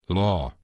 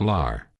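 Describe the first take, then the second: First: The syllable ends without an R sound. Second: The syllable ends with an R sound. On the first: The speaker calls it right. "Hear that? Law" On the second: The speaker calls it wrong. "Not lar"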